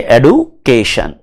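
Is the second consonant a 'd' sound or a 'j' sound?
d sound. It is said with a 'd' sound, American style.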